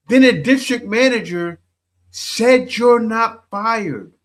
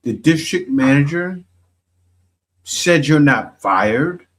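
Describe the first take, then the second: First: Incredulous. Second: Said in the usual way. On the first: Shown as a demonstration. Commentator repeating the story back to her in high disbelief. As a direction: stretch it out like you can't believe it.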